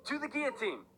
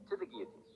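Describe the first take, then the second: First: Frantic yell. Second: Whispered, barely voiced verdict; whispered sentence. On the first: Acted. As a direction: bellow "To the guillotine!" in a frenzy. Frenzied condemnation after protest. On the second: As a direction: breathe "To the guillotine" out in a hushed whisper. Quiet condemnation among repeated sentences.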